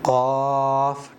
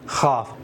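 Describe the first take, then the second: First: The word begins without a raspy kh sound. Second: The word begins with a raspy kh sound. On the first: The speaker calls it right. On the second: The speaker calls it wrong.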